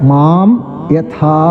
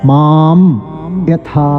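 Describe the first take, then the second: No difference in how they are said.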